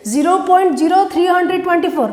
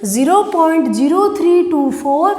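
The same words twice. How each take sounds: First: "three hundred twenty four" read as a whole number; the wrong way, digits as three hundred twenty-four; wrong reading shown. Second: "zero point zero three two four" with every digit separate. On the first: ("three hundred twenty four" गलत तरीका, पूरी संख्या की तरह) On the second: ("three two four" हर अंक अलग बोलें) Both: Shown as a demonstration. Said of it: "नहीं होगा".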